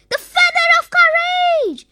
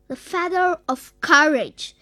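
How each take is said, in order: First: Much higher, louder triumphant cry; excited shout. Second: Said in the usual way. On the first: A narrator's reading. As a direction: shout out the discovery in a high character voice. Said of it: "shouted Zippy".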